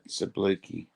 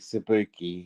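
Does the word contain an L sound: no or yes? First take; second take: yes; no. First: The word has an L sound after the b. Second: The word has no L sound after the b. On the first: The speaker calls it wrong. "Just get it right" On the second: The speaker calls it right. "it's Sibuki"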